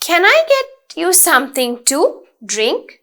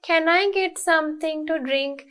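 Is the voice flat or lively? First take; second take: lively; flat. First: It is said with lively, varied intonation. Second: It is said in a flat, monotone voice.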